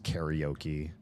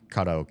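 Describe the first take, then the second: First: It is said with an American pronunciation. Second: It is said closer to the original pronunciation.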